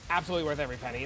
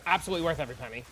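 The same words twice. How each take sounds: First: Said in the usual way. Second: Fast. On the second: Real, not acted. Rapid first take.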